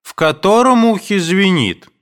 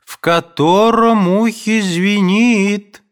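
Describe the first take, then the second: First: High, loud calling question; mother's shout. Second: High, loud, slow drawn-out call; mother's slow shout. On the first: Mother shouts her question from the next room. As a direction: call it out from afar. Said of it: "закричала вдруг мать". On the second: Mother impatiently shouts again from her room. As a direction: stretch the words out, calling from afar. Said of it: "кричала мать". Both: A narrator's reading.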